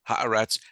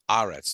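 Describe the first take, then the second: First: The stress falls off the 'ah' syllable. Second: The stress falls on the 'ah' syllable. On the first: The speaker calls it wrong. "it's not" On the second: The speaker calls it right. "the accent will be on the ah"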